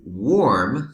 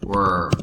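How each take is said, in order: First: "warm" with an open "aw" vowel, said loud and rising; careful warm. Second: "Worm" with the "er" vowel, short and falling; worm, as usually said. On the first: Teacher to Spanish-speaking students, sounding out "warm" loudly. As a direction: stretch the vowel in "warm" like "wawm", not "worm". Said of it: "So we have warming and worm". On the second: Teacher contrasting it with warm, saying "Worm" her usual way. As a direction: say "Worm" with the r-coloured "er" sound, clipped short. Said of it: "Worm is how I usually say it". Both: Shown as a demonstration.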